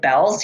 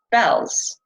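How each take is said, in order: First: Bells asked with a rising tune; puzzled question. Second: Said in the usual way. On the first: Retold or imitated. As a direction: query it in disbelief. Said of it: "I was like". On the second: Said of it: "All of a sudden I started hearing".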